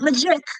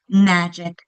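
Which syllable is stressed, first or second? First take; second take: second; first. First: The stress is on the second syllable. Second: The stress is on the first syllable. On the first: The speaker calls it wrong. "it's not magic" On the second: The speaker calls it right. "The accent's on the first syllable"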